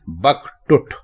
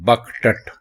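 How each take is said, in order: First: The last syllable has the vowel u. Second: The last syllable has the vowel a. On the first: The speaker calls it right. "टे के ऊपर आप पेश लगाएंगे" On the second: The speaker calls it wrong. "ये गलत है"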